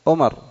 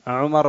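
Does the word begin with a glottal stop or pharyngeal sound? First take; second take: glottal stop; pharyngeal. First: It begins with a glottal stop. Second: It begins with a voiced pharyngeal sound. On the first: "ولذا في بعض اللهجات ... العين ينطقونها همزة" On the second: "والعين ينطقونها همزة"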